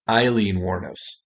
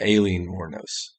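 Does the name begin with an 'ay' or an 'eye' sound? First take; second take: eye; ay. First: The name begins with an 'eye' vowel sound. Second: The name begins with an 'ay' vowel sound. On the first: The speaker calls it right. "it's actually pronounced Eileen" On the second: The speaker calls it wrong. "I pronounced it wrong the entire episode"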